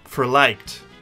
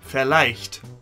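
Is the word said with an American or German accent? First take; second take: American; German. First: The word is said with an American accent. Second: The word is said with a German accent. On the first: "when you say it in an American accent" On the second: "if I was to pronounce it the German way, it would sound like this"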